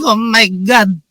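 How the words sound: It is said in a Filipino accent.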